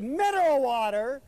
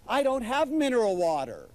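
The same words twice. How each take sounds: First: High, loud disbelieving "Mineral water?"; incredulous echo. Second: Fretting hostess. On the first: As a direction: toss her words back in disbelief. He echoes her in disbelief. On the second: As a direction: fret like a hostess caught unprepared. Wife dismayed about water. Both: Retold or imitated.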